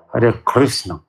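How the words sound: It is said with an American accent. "По-американски"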